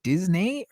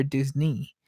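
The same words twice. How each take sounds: First: Disney as "Diz-NAY"; Disney rhyming with "day"; wrong version. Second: Disney as "DIZ-nee"; Disney ending like "knee"; correct version. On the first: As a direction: contrast Disney with a "nay" ending. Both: Retold or imitated. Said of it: "Are you saying Disney or Disney?".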